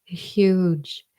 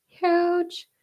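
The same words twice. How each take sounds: First: Said in the usual way. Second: Huge. jumps way up high in a squeal; Huge. thrown up into a high squeak; squeaky high huge. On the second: Shown as a demonstration.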